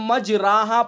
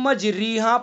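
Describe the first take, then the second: First: The vowel after the r is an open a. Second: The vowel after the r is a close ee. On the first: "अगर जबर पढ़ेंगे तो मजराहा पढ़ा जाएगा" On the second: "अगर जेर पढ़ेंगे तो मजरीहा पढ़ा जाएगा"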